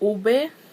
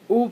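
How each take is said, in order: First: The word is said as two syllables. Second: The word is said as one syllable. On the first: The speaker calls it right. "it's pronounced like ube" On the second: The speaker calls it wrong. "oob is not pronounced oob"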